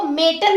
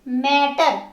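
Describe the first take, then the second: First: The first vowel sounds like the 'e' in 'met'. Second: The first vowel sounds like the 'a' in 'mat'. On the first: The speaker calls it wrong. "इसको मेटर नहीं बोलोगे" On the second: The speaker calls it right. "ए का sound दोगे"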